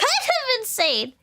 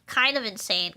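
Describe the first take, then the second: First: Much higher and slower, giggling; squeaky laugh. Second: Said in the usual way. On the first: Shown as a demonstration. Giggling at her own hobby obsession, squeaky and slow. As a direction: stretch it out high like a squeal. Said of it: "laughs, much higher and slower". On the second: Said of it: "repeats it".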